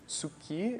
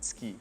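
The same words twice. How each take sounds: First: Every sound of the word is fully voiced. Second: The word is clipped, with a sound dropped. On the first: "some people say tsuki" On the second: "you can pronounce it simply tsuki"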